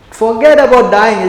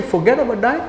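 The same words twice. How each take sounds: First: "Forget about dying" high and loud, falling at the end; emphatic assertion. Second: "Forget about dying" high, rising into a question; incredulous echo. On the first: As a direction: declare "Forget about dying" firmly as a statement. Acts out the preacher's assertion. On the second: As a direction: throw "Forget about dying" back in disbelief. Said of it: "You say". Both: Acted.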